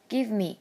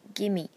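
First: Both words are said fully and separately. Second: The words merge into one reduced form.

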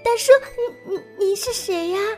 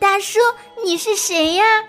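First: It is said timidly and quietly, stuttering. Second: It is said loudly and clearly.

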